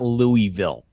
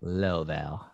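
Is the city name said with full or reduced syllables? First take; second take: full; reduced. First: The name is said with three full syllables. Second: The name is squeezed into two reduced syllables. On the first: The speaker calls it wrong. "I'm saying it wrong. It's not Louisville" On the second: The speaker calls it right. "It's like Laval"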